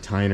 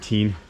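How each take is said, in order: First: The vowel sounds like 'eye'. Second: The vowel sounds like 'ee'. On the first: "You either pronounce it Tyne" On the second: "or Teen"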